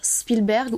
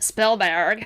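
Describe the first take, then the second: First: The name is pronounced the French way. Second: The name is pronounced the American way. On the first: "à la française" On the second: "à l'américaine"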